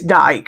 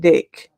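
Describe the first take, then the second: First: The vowel is long, rhyming with bike. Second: The vowel is short, rhyming with kick. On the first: The speaker calls it right. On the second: The speaker calls it wrong. "I've said it wrong in past"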